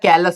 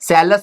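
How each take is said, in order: First: The word begins with a k sound. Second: The word begins with an s sound. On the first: The speaker calls it right. "Most of the time कैलस बोला जाता है" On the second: The speaker calls it wrong. "सैलस बोल सकते हैं"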